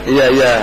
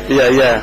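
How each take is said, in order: Both takes have the same delivery.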